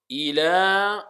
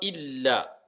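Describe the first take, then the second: First: The L sound is short and single. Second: The L sound is held long and doubled. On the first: The speaker calls it right. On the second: The speaker calls it wrong.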